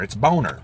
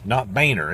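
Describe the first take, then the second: First: Boner said "Bone-er"; the long o version; English spelling pronunciation. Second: Boehner said "Bayner"; the long a version; Boehner pronunciation. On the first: Vlogger insists on Bone-er. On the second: Vlogger rejects the Bayner pronunciation. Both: Shown as a demonstration. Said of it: "English pronunciation of Mister Boner's name".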